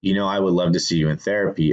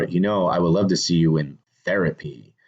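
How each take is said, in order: First: You hit first and hard, the rest quick; stress on you. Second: Love stretched and leaned on, falling after it; stress on love. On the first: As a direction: lean on You, then rush the rest of the line. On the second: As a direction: lean into love, let it land. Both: Shown as a demonstration. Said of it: "there's an emphasis on that word".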